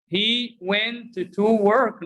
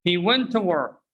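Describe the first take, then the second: First: Slow, higher, "went to" split with full "too"; over-separated "went to work"; wrong unreduced example. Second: "went to" run together as "wenta"; short "tuh" for "to"; connected "wenta work"; reduced pronunciation. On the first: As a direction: stretch "to" as its own word. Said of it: "don't say". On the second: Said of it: "repeat after me". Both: Shown as a demonstration.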